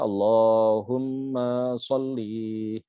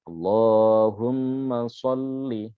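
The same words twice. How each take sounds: First: The final vowel of sholli is drawn out long. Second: The final vowel of sholli is kept short. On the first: The speaker calls it wrong. "Ma-nya sudah panjang, li-nya juga dipanjangkan" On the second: The speaker calls it right. "bisa dibaca pendek"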